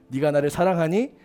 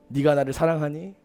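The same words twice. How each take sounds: First: Softer and lower, gently asking again; quiet loving question; tender question. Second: Soft, lower, gently asking; a softly spoken question of love; tender question. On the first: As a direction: coax the answer out tenderly. Jesus asks Peter again. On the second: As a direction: ask it like a gentle friend restoring trust. Jesus gently asks Peter. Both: Acted.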